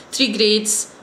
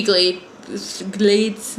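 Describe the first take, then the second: First: Said in the usual way. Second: GLADE with an L in place of the R of grade; Japanese-style L for R. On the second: Real, not acted. Counting the school's year groups, accidental Japanese-style L for R. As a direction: slip into L for R on GLADES. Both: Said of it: "I'm turning Japanese already".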